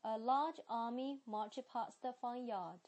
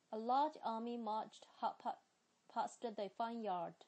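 First: British accent, careful teacher model; 英式发音示范句. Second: A large army marched at a quicker pace; British accent, read a bit faster; 英式发音，读快一点. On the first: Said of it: "接下来是sentences". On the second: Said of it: "我来读快一点哈". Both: Shown as a demonstration.

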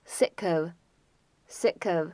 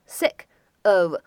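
First: "sick of" run together, the k joining onto "of"; "sick of" with no gap between the words; linked sounds. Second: Said in the usual way. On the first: Shown as a demonstration. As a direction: slowly model "sick of" as one word, like "si-kov". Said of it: "可以做一个连读". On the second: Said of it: "这两个单词呢".

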